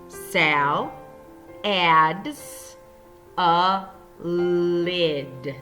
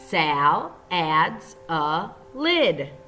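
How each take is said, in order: First: Each word is read separately, like a robot. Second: The words flow together in a normal voice. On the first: "pointing to each word as we read" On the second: "in a normal voice so we don't sound like a robot"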